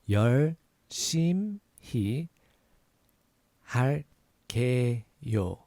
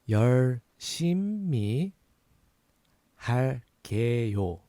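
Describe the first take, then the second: The two takes are said the same way.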